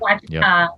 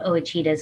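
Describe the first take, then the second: First: The name starts without a separate O sound. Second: The name starts with a separate O sound.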